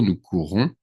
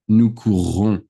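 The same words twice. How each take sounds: First: "courons" with one short R, said plainly; nous courons, quick single R as in the present; present tense single R. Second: "courrons" louder, with a lengthened, emphasized double R; nous courrons, hold and stress the R to mark the future; future tense double R. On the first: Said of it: "In future, it's gonna be nous courons". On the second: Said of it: "and you have to say it". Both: Shown as a demonstration.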